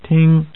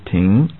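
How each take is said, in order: First: The syllable is said with a level tone. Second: The syllable is said with a rising tone. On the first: It means to listen or hear. "level tone" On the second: It means to stop or park. "rising tone"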